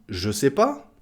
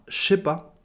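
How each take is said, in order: First: 'Je' keeps its buzzing zh sound. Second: Said fast, 'je' becomes a hissing sh. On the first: "On dit je sais pas" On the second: "en le disant très vite, ça donnera"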